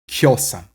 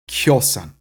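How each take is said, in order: No difference in how they are said.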